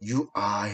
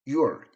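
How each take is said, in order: First: Two full words, are fully pronounced. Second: One short contracted syllable, are reduced. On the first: "you are 이렇게 했는데" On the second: "you are가 아니라 여기서는 your"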